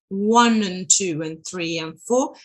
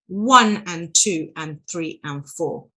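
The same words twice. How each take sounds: First: The word 'and' is reduced to a schwa. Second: The word 'and' is said with a full vowel.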